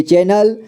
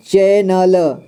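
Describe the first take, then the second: First: Said in the usual way. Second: चैनल slowly split as चै, न, ल; syllable by syllable. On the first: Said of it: "इसे पढ़ेंगे". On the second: Shown as a demonstration. Teacher showing learners चैनल, slowly sounded out. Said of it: "इसे पढ़ेंगे चैनल".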